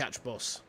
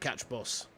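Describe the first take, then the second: First: The word 'the' is reduced, barely spoken. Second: The same.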